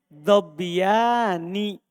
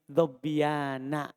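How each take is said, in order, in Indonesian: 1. Suku kata terakhir berakhir dengan vokal 'i'. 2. Suku kata terakhir berakhir dengan vokal 'a'. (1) "Seharusnya dhobbiyani" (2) "Tapi dia baca di sini dhobbiyana. Dia fathah"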